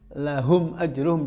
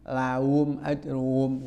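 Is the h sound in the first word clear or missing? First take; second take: clear; missing. First: The h sound in the first word is clearly heard. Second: The h sound in the first word is dropped. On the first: The speaker calls it right. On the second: The speaker calls it wrong.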